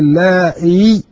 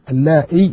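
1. تنتهي الكلمة بحرف مدّ طويل 'ee'. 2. تنتهي الكلمة بحركة قصيرة 'i'. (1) "بإثبات الياء" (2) "بكسر الهمزة"

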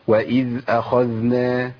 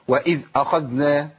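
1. أصوات الذال واضحة وسلسة. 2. صوت الذال يُقطع فجأة. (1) "مطلوب ان انا ابين الصوت زي ما عملت كده" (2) "عدم تطبيق صفه الرخاوه. ازاي؟ اقطع الصوت"

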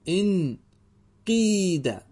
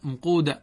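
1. الحرف الممدود بعد القاف هو كسرة. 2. الحرف الممدود بعد القاف هو ضمة. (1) "اكسر القاف" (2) "اللغة الأولى"

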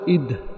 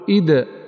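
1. لا يُنطق الدال الأخير بقلقلة. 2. يُنطق الدال الأخير بقلقلة. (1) "ولا تقول إد" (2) "تقول إد، وهي القلقلة"

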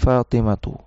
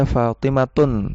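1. Kata ini berakhir dengan vokal tanpa n. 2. Kata ini berakhir dengan bunyi n tambahan. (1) "tapi Fatimatu" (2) "tidak dibaca Fatimatun"

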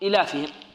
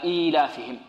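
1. الحركة الأولى قصيرة، لا توجد فيها ياء مدّ طويلة. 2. الحركة الأولى صوت ياء طويلة. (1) "خافوا أن يقرأها القارئ يقول إيلافهم" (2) "إذن ننطق هكذا إيلافهم"

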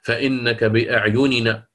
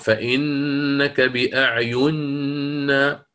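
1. النونان تُنطقان منفصلتين. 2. النونان تُدغمان في نون واحدة.

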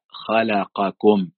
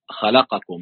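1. كل حرف ياخد حركته الكاملة لوحده. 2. الحركات القصيرة مختزلة ومدموجة مع بعضها. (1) "لا خلقكم" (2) "مثلا ما قلش خلقكم"

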